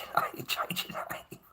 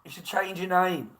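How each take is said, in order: First: Playful whisper through a laugh; half-laughing stage whisper of the advice; mock whisper. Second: Said in the usual way. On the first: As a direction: hush it like a secret warning. Repeating advice, then whispering it.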